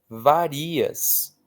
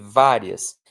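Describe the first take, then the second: First: The stress is on the second syllable. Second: The stress is on the first syllable. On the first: It is the verb form meaning you vary. "Se você não tem acento, ela vira varias" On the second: It is the adjective meaning several. "Ela tem que ter acento"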